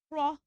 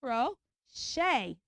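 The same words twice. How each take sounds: First: "crochet" broken as KRO... CHAY; wrong CH sound. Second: "crochet" slowly as KRO... SHAY; SH sound. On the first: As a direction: split "crochet" with a CH in it. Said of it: "you don't say crochet". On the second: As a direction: draw out "crochet" in two beats with SH. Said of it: "You say crochet". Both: Shown as a demonstration.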